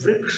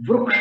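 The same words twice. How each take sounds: First: The r is followed by an ee-like vowel. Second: The r is followed by an oo-like vowel. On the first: The speaker calls it wrong. "नहीं" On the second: The speaker calls it right. "रुक्ख जो ऊ है उसमें, उससे सूचित होता है कि यहाँ पर वृक्ष होना चाहिए"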